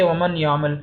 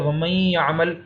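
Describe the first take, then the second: First: ومن یعمل with a clearly sounded n; clear izhar. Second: ومن یعمل with the n merged into a nasal y; idgham. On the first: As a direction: separate ومن from یعمل on a crisp n. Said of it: "نہ ہم اظہار کر رہے ہیں". (ومن یعمل میں نون صاف الگ پڑھیں) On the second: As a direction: join ومن یعمل as "wamay-ya'mal". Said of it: "تو ہم نے اس پہ ادغام کیا". (ومن یعمل کو ملا کر غنہ سے پڑھیں) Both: Shown as a demonstration.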